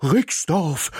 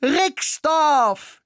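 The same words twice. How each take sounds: First: Higher, eager dog voice; dog echoing the answer excitedly; excited bark. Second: The mouse's very high, loud Rixdorf; excited shout. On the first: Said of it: "bellte Ismir aufgeregt". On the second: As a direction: cry Rixdorf in delight. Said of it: "schrie ich begeistert". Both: A narrator's reading.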